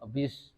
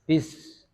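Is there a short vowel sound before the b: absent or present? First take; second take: present; absent. First: A short e-like vowel comes before the b. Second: The b starts cleanly from closed lips. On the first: The speaker calls it wrong. "Kalau tidak mingkem terlebih dahulu nanti kurang sempurna, jadinya bis. Ya ada huruf e jadinya" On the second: The speaker calls it right. "Jadi mingkem dulu, merapat dulu baru diucapkan"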